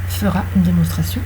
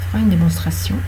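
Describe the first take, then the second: The two takes are said the same way.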